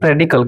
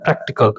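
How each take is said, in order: First: The middle consonant is a soft 'd' sound. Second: The middle consonants are a clear 'kt' cluster. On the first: The speaker calls it wrong. "प्रेडिकल गलत है भाई" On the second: The speaker calls it right. "प्रैक्टिकल बोलते हैं ना"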